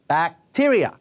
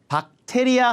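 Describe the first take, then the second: First: It is said with English stress and sounds. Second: It is said with even, Korean-style syllables. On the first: Listeners will understand it. The speaker calls it right. "bacteria라고 해줘야 돼요" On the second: Listeners will not understand it. The speaker calls it wrong. "박테리아 하면 아예 못 알아듣고요"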